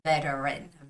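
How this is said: The middle T is a soft, lazy sound. "in an American English style of way ... very like lazy T sound"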